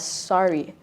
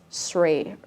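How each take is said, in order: First: The name is said as two syllables. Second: The name is said as one syllable. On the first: It is the name's owner's preferred form. "you prefer uh, for people to pronounce it as Sari" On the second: It is read straight from the spelling. "it kind of sounds like it's, it's Sray"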